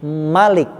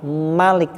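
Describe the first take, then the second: Both takes have the same delivery.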